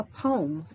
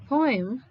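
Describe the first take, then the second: First: "poem" said as one syllable, pome. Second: "poem" said in two syllables, PO-em. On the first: Teacher showing students the other pronunciation, one-syllable "poem". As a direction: run "poem" together to rhyme with home. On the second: Teacher showing students the optional pronunciations, two-syllable "poem". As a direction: sound both vowels in "poem". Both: Shown as a demonstration. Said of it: "optional pronunciation of this word".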